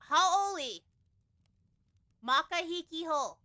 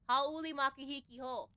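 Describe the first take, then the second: First: The phrase is said slowly and carefully. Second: The phrase is said at normal speed.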